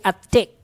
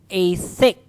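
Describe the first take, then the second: First: The word begins with a plain t sound. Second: The word begins with a breathy th sound. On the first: The speaker calls it wrong. "You don't say a thick" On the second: The speaker calls it right. "May letter H yan. It's voiceless"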